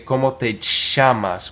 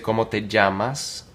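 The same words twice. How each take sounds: First: It is said in an Argentine Spanish accent. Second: It is said in a Colombian Spanish accent. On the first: "In Argentina, they might say" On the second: "Like in Colombia, Venezuela"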